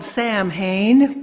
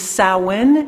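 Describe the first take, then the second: First: The word is sounded out as it is spelled. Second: The word is said unlike its spelling suggests. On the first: "It's uh, spelled Samhain" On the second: "the pronunciation is Samhain"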